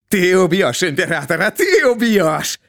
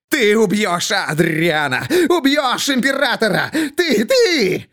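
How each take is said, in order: First: Frantic accusation. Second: Commanding. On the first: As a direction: still half asking, pressing hard. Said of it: "Шут не спрашивает, а приказывает". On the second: Jester commands them, as if possessed. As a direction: order it, no longer asking. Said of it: "не спрашивает, а приказывает". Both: A narrator's reading.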